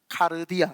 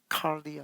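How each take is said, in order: First: The r sound forms its own extra syllable. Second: The r sound closes the first syllable. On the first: It reflects a rural background. "저는 시골 출신이니까 카르디아 이렇게 발음을 합니다" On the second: It sounds more learned. "칼디아라고 이제 발음하면 조금 더 여러분들 유식해 보입니다"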